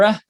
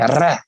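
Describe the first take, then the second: First: The R is a smooth American sound. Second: The R is a trilled Balkan sound. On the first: "in America we say R" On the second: "in Balkan you guys say R"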